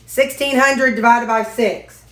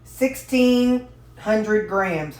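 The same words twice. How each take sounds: First: Sixteen hundred said up and clearly for the voice assistant; firm command to a smart speaker. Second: Sixteen hundred said slowly, working it out; thinking aloud, drawn out. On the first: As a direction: speak up so the device hears. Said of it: "Hey, Ziggy". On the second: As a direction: say it slowly while you calculate. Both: Real, not acted.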